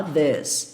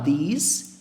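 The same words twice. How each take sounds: First: "this" with an open E-like vowel; short E-like vowel. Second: "these" rising on a long EE; long EE vowel. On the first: Teacher contrasts two words for students, E sound in "this". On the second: Teacher contrasts two words for students, long EE in "these". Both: Shown as a demonstration. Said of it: "É muito diferente falar these e falar this".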